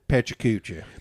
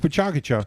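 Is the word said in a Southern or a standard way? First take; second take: Southern; standard. First: The word has a Southern-style pronunciation. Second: The word has a standard pronunciation. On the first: This is how the speaker used to say it. The speaker calls it wrong. "I always said Pachacucha because I'm from the south" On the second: This is the accepted pronunciation. The speaker calls it right. "but it's Pachakacha"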